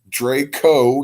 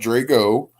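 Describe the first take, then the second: First: The middle consonant is a k sound. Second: The middle consonant is a g sound. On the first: The speaker calls it right. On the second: The speaker calls it wrong. "not Drago"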